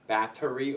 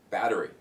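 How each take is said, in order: First: The middle consonant is a clear T sound. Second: The middle consonant is a soft D sound.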